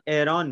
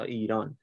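First: It is said the Tajik way, like 'Eron'. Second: It is said the Iranian way, like 'Iran'. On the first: The speaker calls it right. "مردم تاجیکستان به ایران ایران میگن که اسم صحیح تر و درستری هست" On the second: The speaker calls it wrong. "تا ایران"

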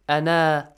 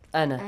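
First: The word is said alone, ending at a stop. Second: The word runs straight into the next word. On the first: "if you stop at the word ana, it becomes ana" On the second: "But when you continue"

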